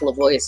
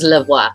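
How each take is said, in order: First: The name ends like the English word 'voice'. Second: The name ends with a French 'wa' sound. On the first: "is not French" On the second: "which is actually French"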